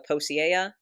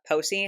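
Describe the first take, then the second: First: The name is said with an extra syllable. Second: The name is said with its usual syllables. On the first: The speaker calls it wrong. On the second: The speaker calls it right.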